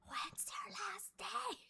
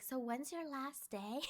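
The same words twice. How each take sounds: First: High, drawn-out stage whisper; loud whisper. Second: Hushed, slow question meant to be overheard; imitated loud whisper. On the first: Retold or imitated. Coworker who can't whisper asks, exaggerated loud whisper. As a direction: whisper like someone who doesn't know how. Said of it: "like the whisper loud". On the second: Coworker asking about her last day, mild loud whisper. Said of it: "she said it kinda loud".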